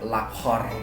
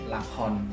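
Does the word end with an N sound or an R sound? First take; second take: R sound; N sound. First: The word ends with an R sound. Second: The word ends with an N sound. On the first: The speaker calls it wrong. "Untuk R-nya tadi dibaca lakhor" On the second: The speaker calls it right. "tapi lakon"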